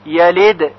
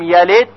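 First: The final d is released with a bounce. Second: The final d is faint and barely heard. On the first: The speaker calls it right. "باید با قلقله تلفظ بشه" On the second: The speaker calls it wrong. "صدای دال به خوبی شنیده نشه اشکال پیدا میشه"

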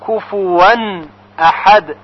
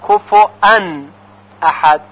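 First: The middle consonant is a w sound. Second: The middle consonant is a glottal stop. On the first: "همین کفوان هست که با واو خونده بشه" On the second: "شاید شنیده باشید که بعضی میگویند"

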